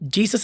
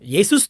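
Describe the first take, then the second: First: The name begins with a J sound. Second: The name begins with a Y sound. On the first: The speaker calls it wrong. "ಜೆ ಎನ್ನುವಂತ ಪದವೇ ಇಲ್ಲ" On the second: The speaker calls it right. "ಯೇಸುಸ್ ತಾನೇ ಇದೆ"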